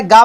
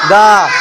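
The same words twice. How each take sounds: First: Said in the usual way. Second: गा lower, with a held "aa"; गा, long and low as a model; drawn-out vowel. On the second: Shown as a demonstration. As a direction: stretch the vowel of गा. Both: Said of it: "थोड़ा खींच कर बोलेंगे".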